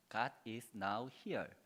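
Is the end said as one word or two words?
two words. The ending is split into two separate words. God is present here. "띄어쓰기에 따라서요"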